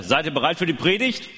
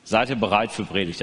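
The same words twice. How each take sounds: First: Rising hyped call to the crowd; kids show host. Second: Said in the usual way. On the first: Acted. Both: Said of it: "Also ich sag jetzt erstmal".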